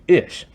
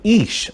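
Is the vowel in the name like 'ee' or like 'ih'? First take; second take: ih; ee. First: The vowel is a short 'ih' sound. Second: The vowel is a long 'ee' sound. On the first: "say it the American way" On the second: "pronounces it with an E"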